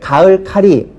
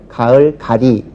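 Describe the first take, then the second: First: The second word starts with an aspirated consonant. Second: The second word starts with a plain consonant. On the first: The speaker calls it wrong. "이건 잘못된 말이죠" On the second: The speaker calls it right. "가을 가리 쪽이 맞습니다"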